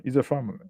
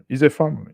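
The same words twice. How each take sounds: First: Said in the usual way. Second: Emphatic "a" in It's a family, louder; stress on a. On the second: Shown as a demonstration. Host stressing to viewers: It's a family, emphatic "a". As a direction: lean on "a", louder take. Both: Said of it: "It's a family repeated".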